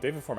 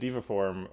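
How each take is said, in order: First: The first word is said like 'deva'. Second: The first word is said like 'diva'. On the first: The speaker calls it right. "I've been attempting to change" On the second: The speaker calls it wrong. "I called it Diva Form for forever"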